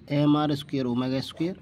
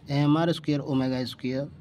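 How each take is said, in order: Both takes have the same delivery.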